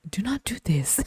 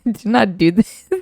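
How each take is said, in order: First: Hushed, voiceless warning; mock dramatic whisper; imitating a whisper. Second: Higher, louder, slowed mock warning; mocking overdramatic caution; mock solemn warning. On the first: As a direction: breathe it like a grave secret. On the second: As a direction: ham up the friend's grave warning. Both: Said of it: "who talks like that?".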